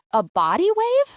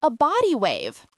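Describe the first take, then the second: First: Body wave asked back higher and louder in disbelief; A body wave? echoed in shocked disbelief; surprised. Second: Said in the usual way. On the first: A narrator's reading. Husband echoes wife's hairdo in shocked disbelief.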